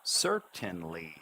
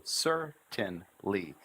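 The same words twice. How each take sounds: First: "Certainly" slow, a new pitch on each syllable; slowly intoned "Certainly", syllables joined by the tune; changing intonation. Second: Very slow "certainly" with a push on each syllable; "certainly" broken into three deliberate beats. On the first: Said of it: "change the intonation for each new syllable". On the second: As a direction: push out "cer", "tain", "ly" separately. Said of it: "I push with each syllable". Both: Shown as a demonstration.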